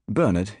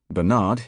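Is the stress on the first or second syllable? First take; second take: first; second. First: The stress is on the first syllable. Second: The stress is on the second syllable. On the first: This is the British way. "in U K" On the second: This is the American way. "in U S A"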